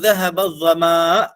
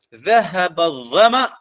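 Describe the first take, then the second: First: The vowel in zama is drawn out long. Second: The vowel in zama is kept short. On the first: The speaker calls it wrong. "dia mengucap dengan mad" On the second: The speaker calls it right. "Bacaan yang betulnya"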